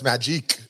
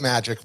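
First: The name is said with a Russian-style pronunciation. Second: The name is said like the English word magic. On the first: "She's Russian, so it's also the Russian way" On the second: "or it's Magic, but with a K"

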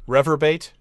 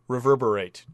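First: The word is said with three syllables. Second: The word is said with four syllables.

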